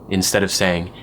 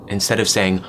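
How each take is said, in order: No difference in how they are said.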